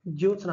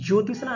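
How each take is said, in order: First: The middle sounds like 'ts' with no vowel. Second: The middle sounds like 'tish' with a vowel. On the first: The speaker calls it right. "आधा त और आधा स रहेगा" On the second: The speaker calls it wrong. "ज्योतिषना नहीं होते, पक्का गलत हो गया।"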